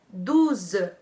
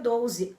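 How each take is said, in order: First: The first vowel is an oo sound. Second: The first vowel is an o sound. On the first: The speaker calls it right. "o certo é douze" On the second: The speaker calls it wrong. "não diga doze"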